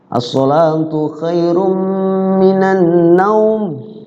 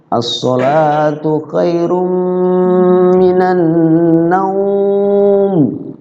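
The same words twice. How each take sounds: First: The vowel in the last word is held briefly. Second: The vowel in the last word is drawn out long. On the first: "Kalau dibaca dua ketukan, madlen juga, cuman dua ketukan dibaca" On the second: "tapi lebih indah itu adalah madlen. Gitu madlen"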